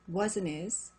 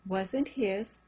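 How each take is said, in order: First: The H in 'his' is silent. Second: The H in 'his' is pronounced.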